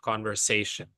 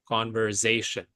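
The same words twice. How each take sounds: First: The middle consonant is a hissing s sound. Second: The middle consonant is a buzzing z sound. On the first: The speaker calls it right. "and not conversation" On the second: The speaker calls it wrong. "with a Z"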